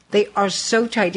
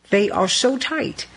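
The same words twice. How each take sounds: First: Tight jaw, words pushed through teeth; through clenched teeth. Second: Said in the usual way. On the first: Real, not acted. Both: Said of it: "Yes, I did say it through clenched teeth".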